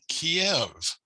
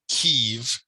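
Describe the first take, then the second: First: The city name is said the Russian way. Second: The city name is said the Ukrainian way. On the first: "that's the Russian pronunciation for this city" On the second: "Ukrainians call their own city Kyiv"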